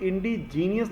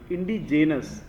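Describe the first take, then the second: First: The word ends with a drawn-out 'nee-us'. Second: The word ends with a short 'nus'. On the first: The speaker calls it wrong. "यहाँ पे इंडिजीनियस नहीं पढ़ेंगे" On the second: The speaker calls it right.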